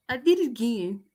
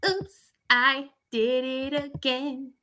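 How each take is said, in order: First: Said in the usual way. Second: Sung, slow, playful sing-song of "[name]"; sung [name] line. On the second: Pretend. Creator laughing off her own mistake, singing the pop line.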